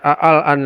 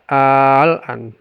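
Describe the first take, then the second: First: The first vowel is short, not drawn out. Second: The first vowel is drawn out very long. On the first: The speaker calls it wrong. "Tidak dibaca al-an lagi" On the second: The speaker calls it right. "tetapi dibaca al-an. Dan itu enam harokat"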